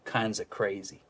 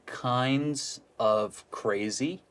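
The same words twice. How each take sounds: First: The words run together with a reduced of. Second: Each word is said separately and fully. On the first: The speaker calls it right. "combine ... to kinds of crazy" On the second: The speaker calls it wrong. "try and combine kinds of crazy"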